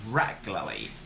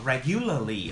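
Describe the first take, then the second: First: No U sound is heard in the middle. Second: A U sound is heard in the middle. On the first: The speaker calls it right. "There's no U sound" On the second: The speaker calls it wrong. "a lot of students mispronounce this word"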